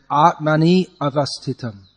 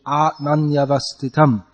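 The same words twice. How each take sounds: First: "Atmani avasthitam" split as two words with a break; "Atmani avasthitam" broken apart, extra syllable; wrong split. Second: "Atmanyavasthitam" run together as one word, i turned into ya; "Atmanyavasthitam" in one flowing sweep; joined flow. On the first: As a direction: say "Atmani avasthitam" as separate words, the i fully sounded. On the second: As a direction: glide "Atmanyavasthitam" without a break. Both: Shown as a demonstration. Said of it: "but it should be".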